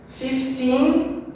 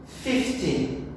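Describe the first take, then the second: First: Put-on "Fifteen" higher, rising onto a long TEEN; fif-TEEN, end-stressed. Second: "fifty" falling, with a softer short ending; FIF-ty, front-stressed. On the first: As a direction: lift the final syllable of "Fifteen". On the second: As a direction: hit the start of "fifty" and let the end fade. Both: Shown as a demonstration. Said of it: "a stressed syllable, a mesma coisa".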